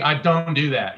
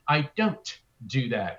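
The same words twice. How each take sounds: First: An American accent with softened consonants. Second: A British accent with every consonant pronounced. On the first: "We say" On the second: "They say, ... they pronounce all of their consonants"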